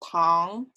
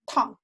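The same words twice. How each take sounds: First: The pitch rises from middle to high. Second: The pitch falls sharply from high to low. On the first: It means sugar. "For sugar" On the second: It means boiling hot. "For hot"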